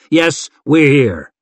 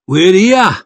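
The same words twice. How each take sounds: First: Said in the usual way. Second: Up-and-down Hillman lilt, loud and high; singsong Hillman accent. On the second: A narrator's reading. Hillman chimes in after his chief, singsong Hillman accent. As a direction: sing it out in a swooping Hillman accent. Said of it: "sang Brackydane in his up-and-down Hillman accent".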